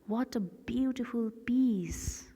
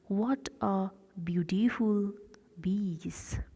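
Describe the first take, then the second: First: It is spoken with a standard English accent. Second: It is spoken with a German accent.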